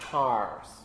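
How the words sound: The r after the vowel is pronounced. "Most American speakers, with very few exceptions, produce the R at the end"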